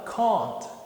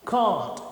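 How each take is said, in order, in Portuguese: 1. É falado com sotaque britânico. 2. É falado com sotaque britânico.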